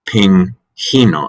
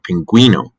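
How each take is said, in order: First: No w sound follows the g. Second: A w sound follows the g. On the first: The speaker calls it wrong. "If you didn't have the U with the umlaut" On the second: The speaker calls it right. "with a we sound"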